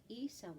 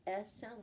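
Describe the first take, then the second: First: "E" said as "ee", as in eagle; long E sound. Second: "S" is a short "eh", as in egg; short E sound. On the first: Teacher giving E's second sound, long "ee". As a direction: give "E" its long "ee". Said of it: "and makes the E sound". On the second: Teacher giving E's first sound, short "eh". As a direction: say a lone short "eh" for "S". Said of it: "The E has the". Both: Shown as a demonstration.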